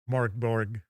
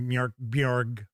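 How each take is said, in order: First: The name is said with plain English-like vowels. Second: The name is said with foreign-sounding 'mj' and 'bj' sounds. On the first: The speaker calls it wrong. "the way I pronounce" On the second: The speaker calls it right. "I think it's supposed to be"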